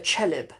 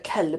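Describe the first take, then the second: First: The word starts with a ch sound. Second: The word starts with a k sound. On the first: This is how villagers say dog. "they didn't even pronounce the calf there" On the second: This is the usual way to say dog. "people called a kelb"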